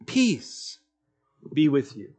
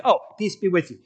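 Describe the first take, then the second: First: Soft, gentle blessing spoken low; hushed peace blessing. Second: Offhand reading. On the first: Jesus gently greeting his frightened disciples, soft and hushed. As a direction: offer peace quietly, like calming frightened friends. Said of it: "The first thing he says to them is this". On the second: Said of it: "as I read the words, I think". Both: Retold or imitated.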